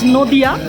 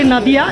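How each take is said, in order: First: The first vowel sounds like 'o'. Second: The first vowel sounds like 'a'. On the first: The speaker calls it right. "That is a Bengali pronunciation" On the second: The speaker calls it wrong. "I will not say Nadia"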